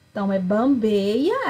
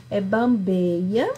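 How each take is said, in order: First: Said in the usual way. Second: "bambeia" drawn out slowly with a rising end; slow stressed word. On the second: Shown as a demonstration. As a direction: stretch out "bambeia" so it lands. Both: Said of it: "preste bastante atenção".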